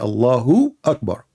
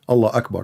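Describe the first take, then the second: First: An extra u vowel links the two words. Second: The first word ends directly, with no added vowel. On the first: The speaker calls it right. "They say Allahu Akbar" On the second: The speaker calls it wrong. "they don't say Allah Akbar"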